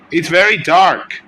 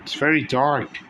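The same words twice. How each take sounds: First: Louder, higher repeat of the line; loud exclamation; loud exclaim. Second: Said in the usual way. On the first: Real, not acted. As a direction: call it out louder the second time.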